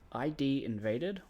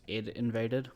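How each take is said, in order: First: The first part is spelled out as two letters. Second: The first part is said as one short word.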